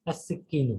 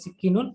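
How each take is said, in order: First: "আর সিকিনু" with "al" merged into the s, as as-sikkinu; with the article. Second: "সিকিনুন" with no "al", ending in -un; without the article. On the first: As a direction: say "আর সিকিনু" ending in -u, no final n. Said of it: "আর আল থাকলে". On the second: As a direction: say "সিকিনুন" bare, closing on a clear n. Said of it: "যদি আমি সিকিনুন বলি আল ছাড়া". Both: Shown as a demonstration.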